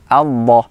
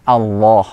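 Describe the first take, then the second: Both takes have the same delivery.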